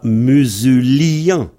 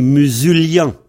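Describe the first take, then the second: First: "musulien" with a full i vowel, mu-su-li-en; the rejected reading of "musulien", i kept as a vowel; wrong pronunciation. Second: "musulien" with the i as a y glide, mu-sul-yen; the right way, "musulien" with a y sound; correct pronunciation. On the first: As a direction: say "musulien" as four syllables, the i a separate vowel. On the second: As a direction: say "musulien" in three syllables, the i gliding into a y. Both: Shown as a demonstration. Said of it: "C'est un y, en fait".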